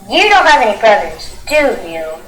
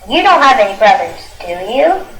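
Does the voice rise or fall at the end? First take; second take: fall; rise. First: The voice falls at the end. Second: The voice rises at the end.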